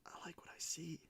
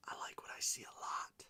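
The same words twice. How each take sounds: First: Soft whispered delight. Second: Soft whispered delight, extended. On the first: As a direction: breathe it out in admiration. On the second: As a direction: breathe it out, savoring it. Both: Real, not acted. Whispering delight at a good card to viewers.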